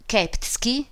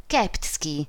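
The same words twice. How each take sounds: First: Keptski? asked with a rising tune; questioning rise. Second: Keptski. stated with a falling tune; falling confirmation. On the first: Lidia asks the baroness about the cousin, a rising question. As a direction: lift the end of Keptski into a question. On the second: The baroness confirms the cousin's name, a falling statement. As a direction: settle Keptski down flat and final. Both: A narrator's reading.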